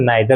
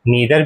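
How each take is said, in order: First: The first vowel sounds like 'eye'. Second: The first vowel sounds like 'ee'. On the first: "और नाइदर भी कह सकते हैं" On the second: "नीदर भी कह सकते हैं"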